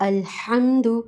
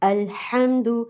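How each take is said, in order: The two takes are said the same way.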